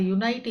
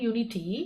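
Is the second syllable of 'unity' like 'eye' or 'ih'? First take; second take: eye; ih. First: The second syllable has an 'eye' vowel. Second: The second syllable has a short 'ih' vowel. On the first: The speaker calls it wrong. "அது யுனைட்டி இல்லை" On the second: The speaker calls it right.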